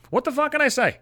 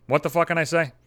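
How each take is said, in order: First: "What the fuck can I say?" pitched way up in mock despair; exasperated high repeat. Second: Said in the usual way. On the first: Shown as a demonstration. Venting to viewers about stalking his ex's house, "What the fuck can I say?" squeaked high. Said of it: "repeated line, pitched way up". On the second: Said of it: "repeats line, second much higher".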